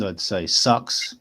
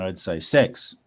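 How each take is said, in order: First: Slow New Zealand "sucks"; Kiwi accent. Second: Australian accent on "sex" for six; Aussie accent. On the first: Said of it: "if I was going to say it with a Kiwi accent". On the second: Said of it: "if I was going to say it with an Aussie accent". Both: Shown as a demonstration.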